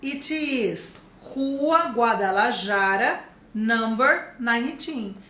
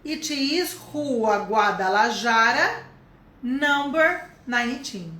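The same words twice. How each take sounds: First: Slow, steady repeat of address; slow model repeat. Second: Slow, clear address; slow model answer. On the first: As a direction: say it again slowly. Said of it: "falei meu endereço em inglês". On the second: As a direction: dictate the address slowly. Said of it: "vou falar do meu endereço". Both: Shown as a demonstration.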